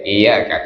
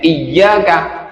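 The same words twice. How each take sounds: First: The 'y' sound is short and single. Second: The 'y' sound is held long and doubled. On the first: To the sun we worship. The speaker calls it wrong. "hilang tasdidnya dibaca iyyaka" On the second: To you, O God, we worship. The speaker calls it right. "Kalau ada tasdidnya iyyaka"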